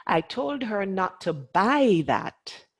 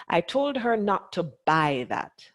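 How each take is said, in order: First: Slow, with "buy" punched and falling after; slow down and hit the word "buy"; stress on buy. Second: Told hit hardest, falling at the end; stress on told. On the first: Teacher asking the men, slow stress on buy. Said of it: "If, if I said". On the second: Teacher showing the class, stress on told. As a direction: lean on "told" in "I told her not to buy that.". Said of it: "from the particular word that I chose to stress". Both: Shown as a demonstration.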